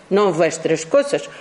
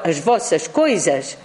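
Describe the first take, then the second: First: Said in the usual way. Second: As vossas coisas said the Portuguese way; Portuguese as vossas coisas, lowered voice; Portuguese pronunciation. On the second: Shown as a demonstration. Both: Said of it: "En portugués no es vuestras cosas".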